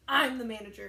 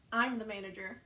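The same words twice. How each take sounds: First: "I'm" hit hard and loud, then the rest follows; proud announcement. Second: Said in the usual way. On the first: Retold or imitated. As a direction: punch "I'm" like a proud boss. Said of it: "he was so happy that that happened". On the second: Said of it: "And so Jeffrey goes".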